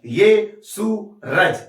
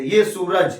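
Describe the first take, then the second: First: ये सूरज slowly, in three separate beats; broken into syllables. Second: Said in the usual way. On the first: Shown as a demonstration. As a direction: break ये सूरज apart as ये, सू, रज, pausing between. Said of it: "break करके बोल रहे हैं". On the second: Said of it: "वो सीधा भी बोल सकते थे".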